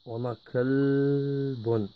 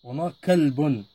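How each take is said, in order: First: Kalbun drawn out slowly for the class; teacher modelling kalbun at half speed; slow syllable-by-syllable demo. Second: Said in the usual way. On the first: Shown as a demonstration. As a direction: stretch kalbun out so pupils catch each sound.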